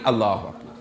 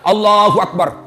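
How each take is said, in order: First: It is said weakly, like blown by wind. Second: It is said with exaggerated, loud energy.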